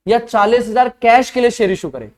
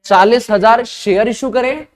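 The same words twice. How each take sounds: First: Second option with cash punched, falling at the end; stress on cash. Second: Slow, spaced-out first option, leaning on share; questioning first choice, share picked out; stress on share. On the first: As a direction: hit cash hard as the contrasting word. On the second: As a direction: lay out चालीस हजार share deliberately, ending on a rise. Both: Shown as a demonstration. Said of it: "interpretation क्या निकालें".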